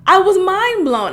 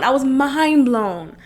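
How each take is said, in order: First: Higher, stressed "I was mind blown"; emphatic mind blown. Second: Said in the usual way. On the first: Real, not acted.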